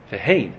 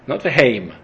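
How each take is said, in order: First: "vehein" ending on a nasal n, falling. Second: "veheim" ending on a clear m sound. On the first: Teacher correcting the reading, "vehein" with final n. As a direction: finish "vehein" with the tongue on n, not m. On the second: Teacher contrasting two Hebrew words, "veheim" with final m. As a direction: close "veheim" on the lips with m. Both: Shown as a demonstration. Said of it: "Heim with the mem means they".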